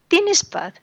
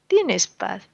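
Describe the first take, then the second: First: ¿Tienes paz? asked much higher, hitting "Tienes"; pointed question. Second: Said in the usual way. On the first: Acted. Preacher challenging the unfaithful husband, high pointed question. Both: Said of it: "preacher repeats the question".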